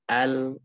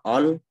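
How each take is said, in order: First: The vowel is a thin, clear a. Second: The vowel is thick, sounding like o. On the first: The speaker calls it right. "tapi al" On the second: The speaker calls it wrong. "Jangan dibaca al"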